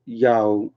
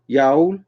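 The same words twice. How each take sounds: First: Low, tentative attempt at Yowl; copying friend's pronunciation. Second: Questioning upward attempt at Yowl; copying friend's pronunciation. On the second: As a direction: Yowl with an ow vowel, rising like a question. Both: Shown as a demonstration. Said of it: "How Beth said it".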